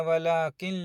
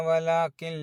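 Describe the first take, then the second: Both takes have the same delivery.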